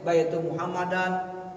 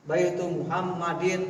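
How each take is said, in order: First: The final word ends with an 'an' sound. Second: The final word ends with an 'in' sound. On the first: The speaker calls it wrong. "enggak boleh" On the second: The speaker calls it right. "Mudhof ilaih itu harus kasroh"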